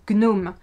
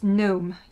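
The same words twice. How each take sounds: First: The G at the start is sounded. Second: The G at the start is silent. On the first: This is the French way of saying it. "in French we pronounce the G" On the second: This is the English way of saying it. "in English it's gnome. You don't pronounce the G"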